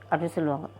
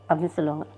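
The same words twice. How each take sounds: The two takes are said the same way.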